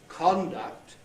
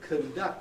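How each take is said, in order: First: The first vowel is a full o sound. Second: The first vowel is a reduced schwa. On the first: "had o in the first syllable" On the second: "had schwa, or no vowel"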